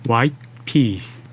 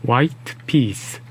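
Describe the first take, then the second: Both takes have the same delivery.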